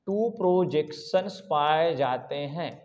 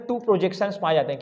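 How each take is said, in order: First: Slow, drawn-out, softer and lower repeat; slow dictation. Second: Said in the usual way. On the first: Shown as a demonstration. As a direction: spell it out word by word for note-takers. Teacher repeats it slowly for class.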